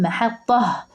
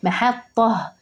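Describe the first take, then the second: The two takes are said the same way.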